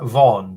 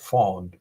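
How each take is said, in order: First: The word begins with a V sound. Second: The word begins with an F sound. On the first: The speaker calls it wrong. "I would pronounce that Vaughan" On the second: The speaker calls it right. "I think it's supposed to be pronounced Fawn"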